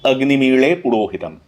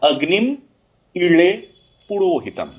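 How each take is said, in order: First: The first two words run together without a break. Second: Each word is said separately with breaks. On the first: This is the continuous recitation of the verse. "संहिता पाठ" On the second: This is the word-by-word recitation of the verse. "पदपाठ, प्रति पद को अलग अलग से पढ़ना"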